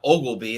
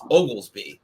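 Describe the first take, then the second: First: The name has no s sound before b. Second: The name has an s sound before b. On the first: The speaker calls it wrong. "a lot of people miss the S and call him Ogleby. And it's not Ogleby" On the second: The speaker calls it right. "it's Oglesby. There's an S in there"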